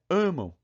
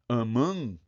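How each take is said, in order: First: The stress is on the first syllable. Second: The stress is on the second syllable. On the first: The speaker calls it right. "A tônica tá no an, né? Nesse a" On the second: The speaker calls it wrong. "se eu jogar lá a tônica pro, pro an, deu ruim"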